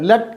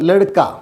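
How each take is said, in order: First: The word is squeezed into two syllables. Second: The word is spread over three syllables. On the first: The speaker calls it wrong. "ലട്ക അല്ല, അത് തെറ്റാണ്" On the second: The speaker calls it right. "ലടുക്ക എന്ന് തന്നെ പറയണം"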